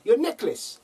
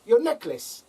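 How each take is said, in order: First: Put-on "your necklace" in a high South African accent; mock South African "your necklace". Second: Put-on "your necklace" repeated, high South African accent; mock South African repeat. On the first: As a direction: imitate the masseuse correcting her. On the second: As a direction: imitate the masseuse insisting. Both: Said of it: "It's all in the accent".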